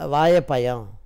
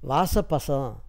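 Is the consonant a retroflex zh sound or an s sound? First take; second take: retroflex zh; s sound. First: The consonant is a retroflex zh sound. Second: The consonant is an s sound. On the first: The speaker calls it right. "அந்த ழகரத்தை வாழைப்பழம் என்று சரியாக" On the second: The speaker calls it wrong. "இன்னும் சில பேர் வாசப்பசம் என்றெல்லாம் சொல்லி"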